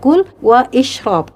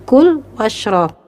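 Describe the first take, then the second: First: The 'i' vowel is pronounced as a separate sound. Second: The 'i' vowel is dropped, linking straight on. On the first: The speaker calls it wrong. "Tidak dibaca kul wa ishrob" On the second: The speaker calls it right. "tapi langsung kul washrob"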